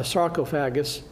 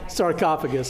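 First: "sarcophagus" stressed on the long second syllable, sar-KOH-fa-gus; wrong stress. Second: "Sarcophagus" stressed on the second syllable with a short "o", sar-KAH-fuh-gus; corrected stress. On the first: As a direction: slip into sar-KOH-fa-gus, leaning on the middle "o". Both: Real, not acted. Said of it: "putting the emphasis on the wrong syllable".

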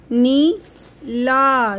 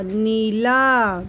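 First: Neela with the नी held long; slow stretched long ई. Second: Said in the usual way. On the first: Shown as a demonstration. (नीला की नी लंबी खींचना) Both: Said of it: "आवाज़ थोड़ी सी लंबी".

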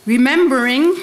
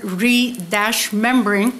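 First: Said in the usual way. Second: "re-membering" with a clear break after the re; slow, deliberate "re-membering" stressing re; re-membering, prefix split off. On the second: Shown as a demonstration. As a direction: say "re-membering" as ree, then membering. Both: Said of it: "the wonderful English word re-membering".

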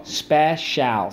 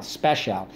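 First: "Special" split as spe, shal; full vowel in the last syllable of "Special". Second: Said in the usual way. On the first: Shown as a demonstration. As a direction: sound out "Special" in two full beats. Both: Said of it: "Let's go".

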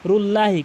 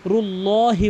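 First: রুল্লাহি with a thin, light lah, the common mistake; wrong pronunciation. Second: রুল্লাহি with a full, heavy loh sound; correct pronunciation. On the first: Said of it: "অধিকাংশ লোক রুল্লাহি বলে". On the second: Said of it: "রুল্লাহি বলতে হবে". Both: Shown as a demonstration.

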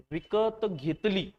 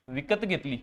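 First: विकत drawn out very slowly with a rising tune, then घेतली; stressed, slow. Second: Said in the usual way. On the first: Shown as a demonstration. Teacher to students, slowly stressing विकत in विकत घेतली. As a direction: lean on विकत and stretch it. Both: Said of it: "घेतली याचा अर्थ".

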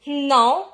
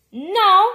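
First: Said in the usual way. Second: Higher, much louder no; shouted refusal. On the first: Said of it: "répond le papa". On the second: A narrator's reading. Dad arguing with the cashier, shouted no. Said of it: "crie le papa".

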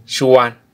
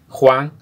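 First: "Xuan" said as "shuan", the X an sh sound. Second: Said in the usual way. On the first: Shown as a demonstration. Teacher contrasting Spanish "Juan" with Kʼicheʼ "Xuan" said with sh. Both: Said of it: "la X en quiché es sh".

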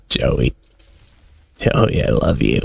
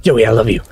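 First: Low, mournful lament; hammed-up mourning, pitched low; mock grief. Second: Urgent, anguished plea; frantic declaration of love; desperate. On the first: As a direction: grieve a pet in a dropped, softened voice. Mourning the dead game pet. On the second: Real, not acted. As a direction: cry out to a dying pet in panic. Pet dying in the fight.

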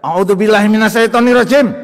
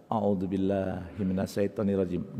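First: Loud, high shouted prayer; mock furious invocation; unmindful angry recitation. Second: Slow, soft, low prayer; unhurried, hushed invocation; mindful recitation. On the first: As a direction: bellow the invocation as if still furious. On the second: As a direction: recite it quietly with full awareness. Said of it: "Dengan penuh kesadaran ya". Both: Shown as a demonstration.

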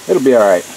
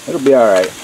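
The two takes are said the same way.

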